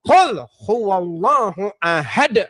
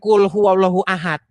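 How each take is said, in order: First: The first word starts with a deep throat q. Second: The first word starts with a plain front k. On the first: The speaker calls it right. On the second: The speaker calls it wrong.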